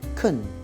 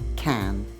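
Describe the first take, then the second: First: It is said weakly with a reduced vowel. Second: It is said strongly with a full vowel. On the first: The word is not being emphasised. "normally when we're speaking, we pronounce can weakly" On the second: The word is being emphasised. "if we're emphasising can and stressing the word, we use the strong form"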